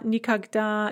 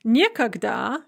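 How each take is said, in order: First: Никогда with unstressed ни, stressed да; stress on last syllable. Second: Никогда said as nie-kogda, stressed nie; stress on first syllable. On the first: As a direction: land on the да in никогда. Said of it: "nie instead of ni". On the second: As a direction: hit nie at the start of никогда. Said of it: "the stress is on the nie". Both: Shown as a demonstration.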